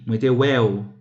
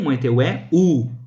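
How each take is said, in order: First: The final u is a short glide, merged. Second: The final u is a full separate vowel. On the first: "Aqui, uma semivogal. É um som de U breve" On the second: "De fato, é uma vogal"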